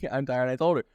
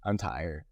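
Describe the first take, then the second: First: Laughing it out, higher; rueful giggle at being tired. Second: Said in the usual way. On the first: Real, not acted. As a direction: say it through a real laugh. Repeats tired, then laughs.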